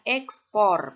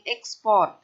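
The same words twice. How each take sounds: First: The word ends without any t sound. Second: The word ends with an added t sound. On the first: The speaker calls it right. "yang benar adalah ekspor. Biasa tidak menggunakan T" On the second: The speaker calls it wrong. "kadang kita mengucapkan seperti orang asing"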